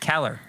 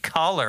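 First: The first vowel sounds like 'eh'. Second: The first vowel sounds like 'ah'. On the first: The speaker calls it wrong. "Kayla always says Keller" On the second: The speaker calls it right. "it's caller. Even I say caller"

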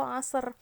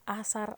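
First: It starts throaty and has a heavy, emphatic s. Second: It starts with plain a and a plain s. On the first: The speaker calls it right. "pengucapannya itu asar. Ain, sod, sama ro" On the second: The speaker calls it wrong. "Bukan asar, alif, sa, sama ro"

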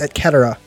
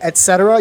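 First: The c in cetera is a hard sound. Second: The c in cetera is a soft sound. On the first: The speaker calls it right. "It's a hard C" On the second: The speaker calls it wrong. "you're fucking wrong"

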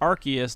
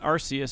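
First: The first part does not sound like 'arse'. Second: The first part sounds like 'arse'. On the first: The speaker calls it right. "it's pronounced Arceus" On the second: The speaker calls it wrong. "not Arceus, because Arceus sounds like arse"

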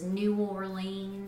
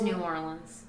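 First: The name is carefully and deliberately enunciated. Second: The name is said casually and naturally. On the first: The speaker calls it wrong. "the fact that you're trying to enunciate" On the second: The speaker calls it right. "It's just New Orleans"

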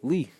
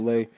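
First: The vowel sounds like the one in 'see'. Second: The vowel sounds like the one in 'day'. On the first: The speaker calls it right. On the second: The speaker calls it wrong. "they would always say Lay"

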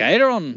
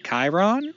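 First: It is said in an Irish accent. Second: It is said in his usual accent.

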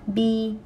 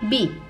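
First: The pitch stays high and level. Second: The pitch falls sharply from high.

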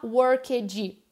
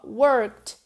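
First: The ending is said as a separate syllable. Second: The ending is a short sound, no extra syllable. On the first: The speaker calls it wrong. "Cuidado que essa palavrinha termina em ed, mas a gente não fala worked" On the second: The speaker calls it right. "É bem sutil, ó"

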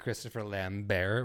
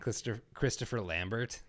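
First: The name is said with French pronunciation. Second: The name is said with English pronunciation. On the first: It sounds classier. "classing it up by saying Christopher Lambert" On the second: It sounds ordinary. "rather than Christopher Lambert"

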